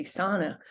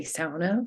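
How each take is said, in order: First: "sauna" said as SAW-nuh, with a single open vowel; outsider pronunciation. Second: "sauna" said as SOW-nah, first syllable like "cow"; insider pronunciation. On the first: Lecturer contrasting outsiders with insiders, "sauna" as SAW-nuh. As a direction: say "sauna" the common American English way, SAW-nuh. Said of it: "most English speakers pronounce the word as sauna". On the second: Lecturer contrasting insiders with outsiders, "sauna" as SOW-nah. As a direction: say "sauna" with the Finnish "ow" diphthong. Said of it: "many people pronounce it as sauna".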